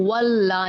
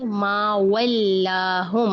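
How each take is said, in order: First: वल्ला as a heavy, rounded "wol-la"; thick lam. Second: वल्लाहुम with a light "wel-laa", held long; slow recitation, spreading the L in वल्लाहुम; spread thin lam. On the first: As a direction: darken the L and vowel in वल्ला. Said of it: "इसको वल्ला नहीं पढ़ना". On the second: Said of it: "थोड़ा सा फैलाएं लाम को". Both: Shown as a demonstration.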